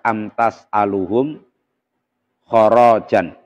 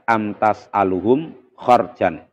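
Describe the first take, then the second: First: The last word has a vowel after the r. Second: The last word has no vowel after the r. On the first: This follows a less common reading tradition. "mengikuti riwayat yang beliau ajarkan, maka akan membaca amtas aluhum kharajan" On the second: This follows the reading tradition common in Indonesia. "yang kita baca mengikuti Imam Hafiz"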